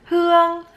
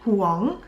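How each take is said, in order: First: The name is said with a Northern Vietnamese accent. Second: The name is said with a Western English accent. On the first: "North Vietnamese pronunciation" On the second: "Western pronunciation"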